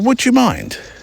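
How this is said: It is said in a gentle, inquiring tone. The request asks permission without assuming. The speaker calls it right. "it sort of asks to be let in, gently"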